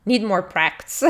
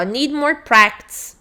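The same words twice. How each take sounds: First: "Need more practice" lower, with a falling end; intonation redone. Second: "need more practice" drawn out slowly without a convincing tune; poor intonation. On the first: Shown as a demonstration. Teacher retries the exercise title, intonation redone low and falling. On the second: Real, not acted. Teacher reads out the exercise link, poor intonation. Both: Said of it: "A entonação não foi boa".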